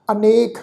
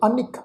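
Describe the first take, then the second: First: ਅਨੇਕ with a long "ay" in the middle. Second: ਅਨਿਕ with a short "i" in the middle. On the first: Teacher giving the original word ਅਨੇਕ, long middle "e". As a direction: say ਅਨੇਕ as "a-NAYK". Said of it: "ਜਿਹੜਾ ਅਸਲ ਸ਼ਬਦ ਅਨੇਕ ਹੈ". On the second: Teacher showing the scripture reading ਅਨਿਕ, short "i". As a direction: say ਅਨਿਕ as "a-nik", vowel cut short. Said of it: "ਸ਼ਬਦ ਦਾ ਪਾਠ ਉਚਾਰਨ ਕਰਾਂਗੇ". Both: Shown as a demonstration.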